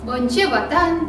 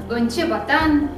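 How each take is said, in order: Both takes have the same delivery.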